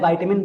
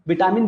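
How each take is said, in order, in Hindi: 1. पहला अक्षर 'vye' की तरह बोला जाता है। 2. पहला अक्षर 'vi' की तरह बोला जाता है। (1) "विटामिन बोलिए चाहे वाइटामिन बोलिए" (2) "विटामिन बोलिए चाहे वाइटामिन बोलिए"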